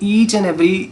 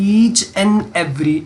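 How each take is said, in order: First: The phrase is said plainly, without extra emphasis. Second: The phrase is said with strong extra emphasis. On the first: This part is obvious. "इस पर stress इसलिए मैंने ज़्यादा नहीं दी" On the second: This part is the key condition. "मैंने जब पढ़ा तो मैंने इस पर स्ट्रेस ज़्यादा दी है"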